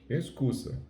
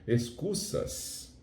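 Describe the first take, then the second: First: The final s is barely audible. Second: The final s is pronounced clearly and strongly. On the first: It sounds like native Spanish speech. The speaker calls it right. "Eles não falam desse jeito" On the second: It marks the speaker as Brazilian. The speaker calls it wrong. "a gente vai, vai falando assim"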